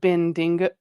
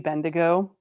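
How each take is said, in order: First: An extra n sound comes before the g. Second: No n sound comes before the g. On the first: The speaker calls it wrong. "it wasn't coming out correctly" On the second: The speaker calls it right. "it's supposed to be Bendigo"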